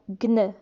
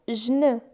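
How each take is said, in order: First: It is said as a hard g then n. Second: It is said as a j sound then n. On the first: "G et N ne se prononcent pas gn" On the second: "G et N ne se prononcent pas jn"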